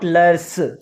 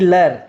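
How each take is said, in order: First: The word ends with an audible s sound. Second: The word ends without an s sound. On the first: The speaker calls it wrong. "and not leurs" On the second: The speaker calls it right. "both of them are to be read lër"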